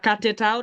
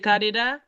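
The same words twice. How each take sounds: First: The t is clear and the words are separate. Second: The words link and the t sounds like d. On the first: The speaker calls it wrong. "se pa cut it out" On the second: The speaker calls it right. "lò fè liaison an, se pa tel liye, li tourne de"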